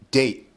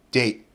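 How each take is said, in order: First: The final T is unreleased, stopping the vowel. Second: The final T is unreleased, stopping the vowel.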